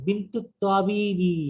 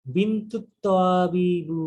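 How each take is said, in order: First: বিন্তু তাবিবি with a clear i ending; corrected genitive তাবিবি. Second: বিন্তু তাবিবু said slowly ending in u; the mistaken তাবিবু ending, drawn out; wrong ending on তাবিবু; slip of ending. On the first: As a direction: fix it to তাবিবি, careful. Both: Shown as a demonstration. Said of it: "না, আমি ঠিক করলাম".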